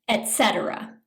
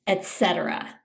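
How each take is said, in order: The two takes are said the same way.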